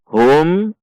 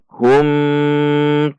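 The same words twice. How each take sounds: First: The final m is short and smooth. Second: The final m is held long. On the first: The speaker calls it right. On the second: The speaker calls it wrong.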